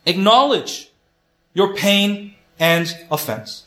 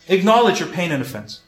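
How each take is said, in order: First: Slow, emphatic point. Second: Said in the usual way. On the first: Shown as a demonstration. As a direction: acknowledge your pain and offense, each word slow and weighted. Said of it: "The first point is".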